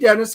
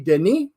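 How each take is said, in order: First: The name is said with American pronunciation. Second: The name is said with French pronunciation. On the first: "that's the American pronunciation" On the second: "if you're French because then it would be Denis"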